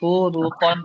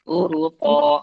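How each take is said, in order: First: The word ends with a final n sound. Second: The word ends on a vowel without n. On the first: It is read as continuing without a stop. The speaker calls it right. "Jadi hurufon" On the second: It is read as if stopping at the word. The speaker calls it wrong. "bukan hurupo"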